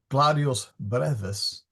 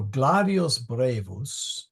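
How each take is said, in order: First: "brevis" with a short E in the first syllable; "brevis" with first syllable like "rev"; corrected pronunciation. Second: "brevus" with a long AY in the first syllable; "brevus" with first syllable like "bray"; mispronounced brevus. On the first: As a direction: say "brevis" as BREV-us. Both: Real, not acted. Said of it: "sorry, gladius brevis".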